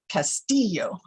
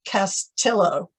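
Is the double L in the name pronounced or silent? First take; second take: silent; pronounced. First: The double L is not sounded as an L. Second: The double L is sounded as an L. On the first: The speaker calls it right. "with the accent on the center syllable, and the two L's are silent" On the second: The speaker calls it wrong. "It's often mispronounced Castillo"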